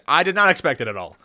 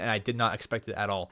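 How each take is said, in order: First: It is said in a sincere tone. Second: It is said in a sarcastic tone. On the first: The surprise is genuine. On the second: The surprise is not meant.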